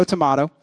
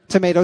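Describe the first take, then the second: First: "tomato" with middle vowel like "mah"; tomahto pronunciation. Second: "Tomato" with middle vowel like "may"; tomayto pronunciation. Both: Shown as a demonstration. Contrasting pronunciations in an idiom.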